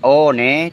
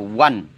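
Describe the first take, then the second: First: The word is read as spelled, o-ne. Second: The word is pronounced like wan. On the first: The speaker calls it wrong. "tidak dibaca" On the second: The speaker calls it right. "dibaca One"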